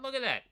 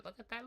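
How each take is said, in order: First: High and louder, bursting with delight; excited. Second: High and soft, half-breathless delight; excited. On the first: Rider crowing at his robotic cadence, high and loud. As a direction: shout it, thrilled by the graph. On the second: Rider marvelling at his steady cadence, high and soft. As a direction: gasp it out, amazed at the numbers. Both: Real, not acted.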